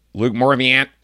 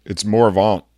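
First: Morvant read out by a bailiff as English, T sounded; mispronounced name. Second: Morvant said Cajun French style, the T silent; corrected name. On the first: Bailiff reading the docket mangles his name, loud. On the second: Defendant correcting the bailiff, name said the French way. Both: Retold or imitated.

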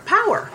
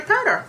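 First: "Power" said clearly with no d; self-correction. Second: Says "powder" instead of "power"; "powder" with a d, the wrong word; slip of the tongue. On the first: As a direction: correct it to "Power", a bit higher. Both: Real, not acted. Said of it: "Not powder".

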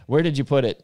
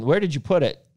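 First: Said in the usual way. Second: Higher and louder, oddly stressed; odd-sounding question. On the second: Real, not acted. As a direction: ask it in an oddly sing-song way. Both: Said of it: "That sounded weird".

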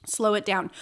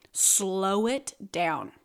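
First: Said in the usual way. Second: Each word drawn out, slow and deliberate; slow right down to show the pace. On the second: Shown as a demonstration.

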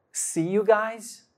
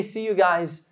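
First: "see you guys" drawn out slowly as a question; challenging echo. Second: Said in the usual way. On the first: Retold or imitated. God questions the speaker's casual goodbye, "see you guys" slow and challenging.

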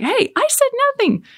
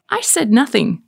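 First: Much higher, mock-innocent squeak; innocent protest. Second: Said in the usual way. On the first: Mom denying to the kids, high mock-innocent voice. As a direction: play dumb in a high voice.

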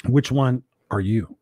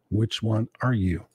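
First: Said in the usual way. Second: Quieter, slower repeat. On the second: Shown as a demonstration. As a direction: ask it again, low and hushed. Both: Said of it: "repeated question".

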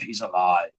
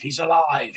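First: "He's alive" dropped very low and soft, spooky; dramatic horror voice. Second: Said in the usual way. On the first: Shown as a demonstration. Host retelling the soap twist, low spooky "He's alive". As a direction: intone "He's alive" like a movie monster reveal.

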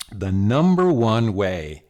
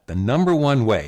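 First: "the number one way" drawn out slowly, each word weighted; slow weighty "the number one way"; stress on number one. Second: Said in the usual way. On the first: Shown as a demonstration. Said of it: "repeated emphatically".

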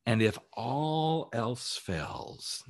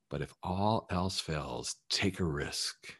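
First: Very slow, drawn-out lead-in; slow dramatic pause. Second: Much softer, slow, intimate; soft slow repeat. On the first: Coach building up to his final advice, slow and drawn-out. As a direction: stretch each word for suspense. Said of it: "coach slows for emphasis". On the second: Coach softly repeating his final advice, quiet and slow. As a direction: drop the voice and lay it down gently. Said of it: "coach repeats softly for emphasis". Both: Shown as a demonstration.

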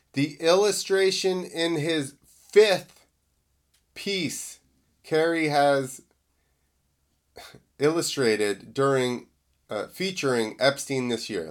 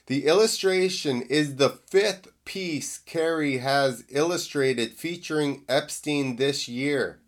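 First: Halting, tripping over the words; botched read with stops; stumbling misread. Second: Said in the usual way. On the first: Real, not acted. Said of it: "Let me read that again 'cause I screwed it up". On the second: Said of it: "Let me read that again".

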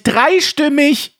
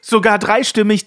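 First: „Dreistimmig!“ langsam gedehnt und höher, clownesk; albern wie ein Clown. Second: Said in the usual way. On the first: Pretend. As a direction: das Wort albern in die Länge ziehen. (alberner Clown) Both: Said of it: "Er hat mehrere Fleischtröten im Mund".

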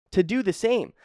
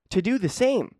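The two takes are said the same way.

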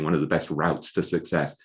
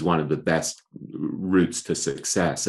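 First: "routes" said the American way, rhyming with "outs"; American pronunciation. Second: Said in the usual way. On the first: Shown as a demonstration. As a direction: say "routes" with an "ow" vowel, like "rowts". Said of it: "I should be saying". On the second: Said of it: "I apologize for my English accent".

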